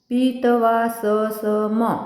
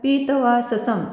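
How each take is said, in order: First: The final m is followed by an 'a' vowel. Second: The final m ends without any vowel after it. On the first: The speaker calls it wrong. "जर का आपण हलंत नसता तर कसा उच्चार केला असता?" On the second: The speaker calls it right. "म हलंत असा उच्चार करायचा"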